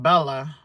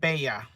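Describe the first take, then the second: First: The double L sounds like an English L. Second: The double L sounds like an English Y. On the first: The speaker calls it wrong. "I was saying Bella" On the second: The speaker calls it right. "She said Bella. ... pronounced like a Y"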